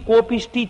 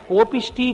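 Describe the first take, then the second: The two takes are said the same way.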